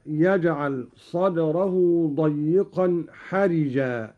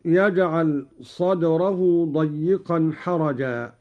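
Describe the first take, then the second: First: «حرجا» with a kasra on the ra, said as harija; «حرجا» said slowly, the ra with a kasra; reading of Qalun. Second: Said in the usual way. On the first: Shown as a demonstration. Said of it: "بكسر الراء هكذا". («حرجا» بكسر الراء) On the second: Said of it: "قرأ قالون بكسر الراء".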